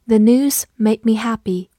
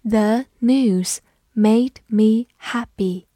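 First: Said in the usual way. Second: Slow, careful model reading; teacher reading slowly for the class. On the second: Shown as a demonstration. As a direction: read it slowly word by word. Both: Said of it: "慢慢来读".

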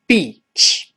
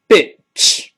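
First: Beach 的元音拉长，口型很小; 把 beach 里的“一”拉长读，像一条细线; 长元音. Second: Bitch 的元音读短促; 示范 bitch，短音 i，不拉长; 短元音. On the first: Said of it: "长音一". (beach 读长音“一”) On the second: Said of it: "这个发短音". (bitch 读短音，和长音明显不同) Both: Shown as a demonstration.

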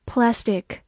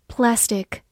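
The two takes are said the same way.

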